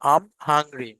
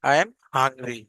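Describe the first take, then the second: First: 'I am' is shortened into one syllable. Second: 'I am' is said as two full words. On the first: The speaker calls it right. "একদম সঠিক ইংরেজিতে বলি" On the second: The speaker calls it wrong. "আমরা এখনো fluent, আমরা হচ্ছে এখনো ওই অ্যাকসেন্ট উচ্চারণ করছি না"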